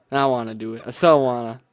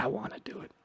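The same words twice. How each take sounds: First: Firm and louder. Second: Whisper. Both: Real, not acted. Torn over claiming the village.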